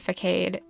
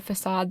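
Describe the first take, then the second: First: "facade" said fuh-KADE, hard k, rhymes with made; mispronounced. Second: "facade" said fuh-SAHD, soft s, stress on the second syllable; correct pronunciation. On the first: Quoting her own slip-up to viewers, "facade" as fuh-KADE. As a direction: give "facade" the wrong reading, fuh-KADE. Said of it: "I slip up and I say facade". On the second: Correcting herself for viewers, saying "facade" as fuh-SAHD. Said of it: "I know it's pronounced facade". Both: Shown as a demonstration.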